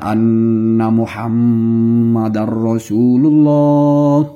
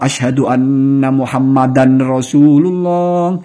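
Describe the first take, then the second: First: The n sound merges into the following r. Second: The n sound is kept before the r.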